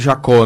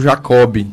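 First: The name ends in a vowel, with no final b. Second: The name is said Portuguese-style with a final b. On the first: This is the standard Portuguese pronunciation. "no português correto a pronúncia seria Jacó" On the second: This is how the family pronounces it. "na família se pronunciou Jacob"

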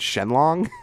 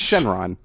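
First: The second syllable begins with an L sound. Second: The second syllable begins with an R sound. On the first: The speaker calls it wrong. "They called the dragon Shenlong" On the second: The speaker calls it right. "It's Shenron"

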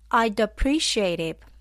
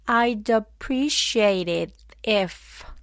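First: It is said at normal speed. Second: It is said slowly.

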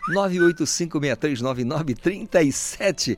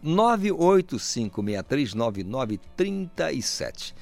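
First: The number is said at normal, quicker speed. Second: The number is said slowly and deliberately.

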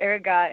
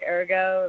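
First: The word is pronounced in an American style. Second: The word is pronounced in a French style. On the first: "maybe that's like the lame American way of saying it" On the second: "like a French type of way"

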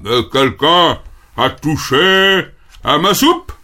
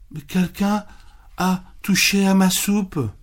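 First: It is said in a big, deep voice. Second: It is said in a softer, gentler voice.

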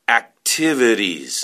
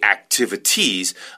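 First: The T sounds are soft and relaxed. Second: The T sounds are crisp and hard. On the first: The speaker calls it right. "the pronunciation is a little softer than that. I would say activities" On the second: The speaker calls it wrong. "I would not say activities"

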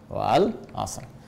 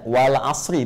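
First: The word ends without a final vowel. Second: The word ends with a final i vowel. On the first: "Tulisannya kan begini ya" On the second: "Bukankah harakat ra-nya kasrah gini? Jadi kalau kita baca wal asri"

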